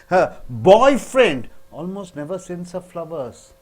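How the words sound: The word boyfriend is stressed. Someone else sends her flowers. "when you stress on boyfriend"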